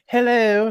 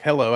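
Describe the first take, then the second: First: High, loud put-on character voice; the cartoon voice, not her normal one. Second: Said in the usual way. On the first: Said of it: "Do the voice". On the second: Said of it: "if she talked normal".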